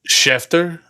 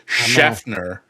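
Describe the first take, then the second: First: The name is said without an N sound. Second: The name is said with an added N sound. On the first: The speaker calls it right. "There's no N involved in Schefter's name" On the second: The speaker calls it wrong. "You always want to put the N in there, like that"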